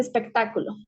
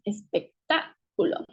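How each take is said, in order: First: Said in the usual way. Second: "espectáculo" slowly broken into syllables, stress on TÁ; stress on the antepenultimate syllable. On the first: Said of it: "esta fuerza de voz". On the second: Shown as a demonstration. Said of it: "esta fuerza de voz la tiene en la antepenúltima".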